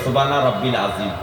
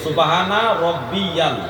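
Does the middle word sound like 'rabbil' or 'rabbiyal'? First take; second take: rabbil; rabbiyal. First: The middle word is short, without a 'ya' syllable. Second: The middle word has an added 'ya' syllable. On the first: The speaker calls it wrong. "আমাদের মুরব্বীরা" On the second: The speaker calls it right. "হাদিসে লেখা আছে সুবহানা রাব্বিয়াল"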